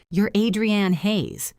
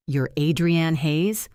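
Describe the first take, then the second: First: Adrienne Hayes said slowly with a falling close, as a fact; flat statement. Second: Adrienne Hayes said slowly, rising at the end as a question; surprised question. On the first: Stranger naming the chef at her table, falling statement. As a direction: state the name, don't ask it. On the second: Photographer realizing who the chef is, rising question. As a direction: ask it, surprised to meet her. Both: A narrator's reading. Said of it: "Not a question, a statement".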